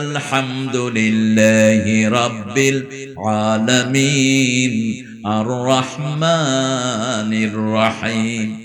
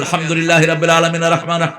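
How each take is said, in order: First: It is recited slowly. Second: It is recited quickly.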